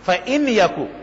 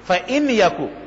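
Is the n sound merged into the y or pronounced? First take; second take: pronounced; pronounced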